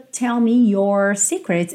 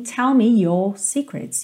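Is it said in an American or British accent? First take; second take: American; British. First: It is said with an American rolled R. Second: It is said with a British accent.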